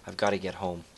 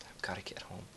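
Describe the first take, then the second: First: Said in the usual way. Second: Breathy hushed whisper. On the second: Acted. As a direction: whisper it to yourself. Repeated line, whispered.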